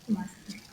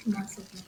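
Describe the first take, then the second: No difference in how they are said.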